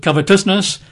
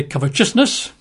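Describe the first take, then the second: First: Covetousness said with a clean t, "covet-us-ness"; "covetousness" with a plain t sound, not ch; corrected "covetousness", t kept crisp; correct pronunciation. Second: Covetousness said as "covet-CHUS-ness", with a ch sound; "covetousness" with the t turned to ch, as some people say it; lightly mocked "covetousness" with a ch sound in the middle; mock mispronunciation. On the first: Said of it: "pronounce it covetousness". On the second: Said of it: "Or as some people say". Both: Shown as a demonstration.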